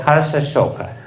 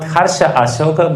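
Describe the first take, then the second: First: The second part is heard as 'Shoka'. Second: The second part is heard as 'Ashoka'. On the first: The son brings both joy and sorrow. The speaker calls it right. "but Harsha Ashoka. So it means that he will bring you immense pleasure, Harsha. ... Shoka" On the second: The son brings joy without sorrow. The speaker calls it wrong. "Not Harsha Ashoka"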